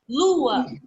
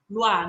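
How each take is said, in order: First: The word splits into two beats with a break. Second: The word runs together as one beat. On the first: The speaker calls it right. "Uma pausinha, ó" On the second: The speaker calls it wrong. "A gente não fala uma coisa só"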